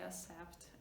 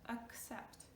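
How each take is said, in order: First: The two c sounds are merged into one. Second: Both c sounds are clearly heard. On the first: The speaker calls it wrong. "Please do not say accept. ... hard maybe to differentiate the C and C together" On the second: The speaker calls it right. "So the first part, accept"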